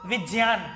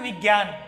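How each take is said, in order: First: The middle consonant is a j sound. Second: The middle consonant is a g sound. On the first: The speaker calls it right. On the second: The speaker calls it wrong.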